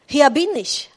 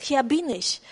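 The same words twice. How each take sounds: First: Loud answer. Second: Said in the usual way. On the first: Acted. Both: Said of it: "antwortete Abraham".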